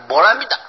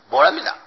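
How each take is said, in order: First: The last syllable is a short, light 'da'. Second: The same.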